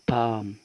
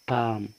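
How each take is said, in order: First: The L sound is silent in the word. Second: The L sound is silent in the word.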